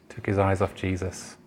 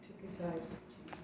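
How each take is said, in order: First: Said in the usual way. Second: Hushed breathy whisper of the answer. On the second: Shown as a demonstration. Whisper it, almost no voice.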